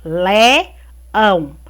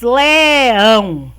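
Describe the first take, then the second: First: LE... ÃO, a clear pause between the two syllables; "le", rising, stop, then "ão" lower; split into syllables. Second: LEÃO stretched loud and long in one glide; "Leão" as one long, emphatic word; drawn-out word. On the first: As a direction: break leão in two: le, then ão. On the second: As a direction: say Leão slowly and louder, vowels held, no break. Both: Shown as a demonstration. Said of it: "duas sílabas".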